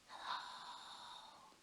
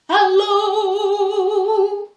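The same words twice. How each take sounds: First: It is said very quietly. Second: It is said very loudly.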